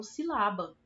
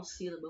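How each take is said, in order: First: "silaba" with the middle syllable LA strongest; stress on LA. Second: "sílaba" with the first syllable SÍ strongest; stress on SÍ. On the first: Teacher shows pupils a wrong stress, "silaba" punched on LA. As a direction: misplace the stress, si-LA-ba. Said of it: "tônica dessa pala-, dessa palavra é o lá". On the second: Teacher cites the real word to pupils, "sílaba" stressed on SÍ. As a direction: say "sílaba" the normal way, leaning on SÍ. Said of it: "então eu não falo sílaba". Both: Shown as a demonstration.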